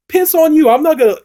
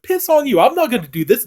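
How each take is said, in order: First: High, loud mocking snap; hammed-up defiant wife; funny defiant retort. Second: High, slightly louder mock defiance; funny defiant retort. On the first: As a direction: spit it back at him, cheeky and loud. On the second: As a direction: lighter rerun of the defiance. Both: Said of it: "it's kind of funny the way she says it".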